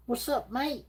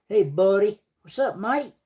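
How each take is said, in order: First: Softer, high Australian "What's up, mate?" said half to himself; quiet mock Australian. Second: High, playful Australian "What's up, mate?"; mock Australian accent. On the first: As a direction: repeat the Aussie greeting under your breath. Repeats greeting, quieter. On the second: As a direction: greet them like a cheeky Australian. Mock Aussie greeting to viewer.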